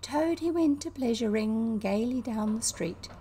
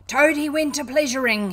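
First: Lightly voiced squeaky singer; a hint of a mocking little song; lilting, slightly squeaky recital; high squeaky voice. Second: Loud, high defiant yell; raised, furious taunting shout. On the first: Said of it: "began in a high squeaky voice". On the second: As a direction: yell the song line as a battle cry. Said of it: "he yelled". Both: A narrator's reading.

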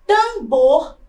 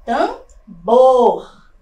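First: Said in the usual way. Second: Tambor split, with a loud, long BOR; stress on final syllable. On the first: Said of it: "também é uma palavra oxítona". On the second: Shown as a demonstration. Teacher shows the tonic syllable, Tambor with loud drawn-out BOR. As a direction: pause after Tam, then push out BOR in Tambor. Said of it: "Sílaba tônica na última sílaba".

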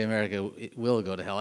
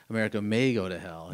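First: WILL leaned on as the key word; stress on will. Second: MAY leaned on, louder than the rest; stress on may. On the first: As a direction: put the weight on "will". Contrasts will with may. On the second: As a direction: put the weight on "may". Contrasts may with will. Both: Retold or imitated.

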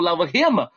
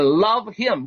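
First: "love him" with a clearly breathed h; "love him" with a full h; wrong full h. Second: "love him" run together as "lovim", no h sound; "love him" said without the h; love him with the h dropped. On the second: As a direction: slur "love him" into one breath without the h. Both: Shown as a demonstration. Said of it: "不要读love him".

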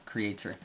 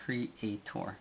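First: Said in the usual way. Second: Creator in careful syllables, ending in a full -tor; teacher spelling out the sound of Creator; sounded-out English. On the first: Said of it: "forma de decirlo en inglés". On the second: Shown as a demonstration. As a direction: say Creator as cre-a-tor, evenly. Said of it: "forma de decirlo en inglés sería".

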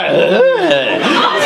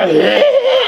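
First: Higher wordless sound, drawn out and falling; approving vocal reaction. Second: High, brief wordless noise of disapproval; disapproving vocal reaction. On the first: Man showing coded praise of a girl's looks, approving noise. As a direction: let an admiring noise slide downward. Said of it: "Just a slight tone change". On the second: Man showing the wrong tone for a compliment, disapproving noise. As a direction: give a short high sound that means not good. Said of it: "and that's not a good one". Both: Shown as a demonstration.

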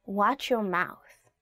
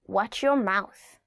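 First: "Watch your mouth" very slow, stress on "your"; slow warning. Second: "Watch your mouth" drawn out, heavy on "your"; slow it down to warn. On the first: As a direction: warn slowly. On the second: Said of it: "translation said slowly". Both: Shown as a demonstration.

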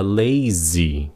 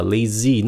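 First: "lazy" drawn out carefully, falling at the end; correct lazy. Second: "lazy" said the learner's mistaken way, quicker; mispronounced lazy. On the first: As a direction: model "lazy" slowly, both syllables clear. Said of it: "nó là lazy". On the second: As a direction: show the faulty "lazy", without drawing it out. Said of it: "nó không phải là lazy". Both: Shown as a demonstration.

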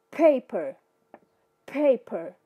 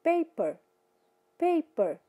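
First: Paper with a strong puff on the P; aspirated English p. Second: Paper with an unaspirated Portuguese P, no puff; Portuguese-style p. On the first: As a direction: blow the P of paper out. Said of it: "todo P vai ser jogado pra fora". (paper com o P cuspido, jogado pra fora) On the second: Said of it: "da mesma forma que eu falo em português". (paper com o P do português, sem sopro) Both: Shown as a demonstration.

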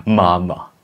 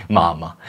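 First: Máma with upper teeth on lower lip for each M; labiodental M. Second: Said in the usual way. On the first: Shown as a demonstration. Teacher deliberately tests an odd articulation, labiodental M in máma. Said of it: "labiodentálně".

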